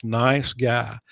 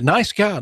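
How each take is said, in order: First: Mean "Nice guy" this time; sincere nice guy. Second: A high, mocking "Nice guy" with a dry edge; sarcastic nice guy. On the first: Real, not acted. Host taking the jab back about his colleague, sincerely. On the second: Host teasing the program director, in a mock sarcastic tone. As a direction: say "Nice guy" like you don't mean it. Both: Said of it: "No, love him to death".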